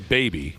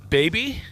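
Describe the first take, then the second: First: The pitch stays level or falls at the end. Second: The pitch rises upward at the end. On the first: The speaker calls it wrong. "Don't just say baby" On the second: The speaker calls it right. "There has to be an upwards inflection"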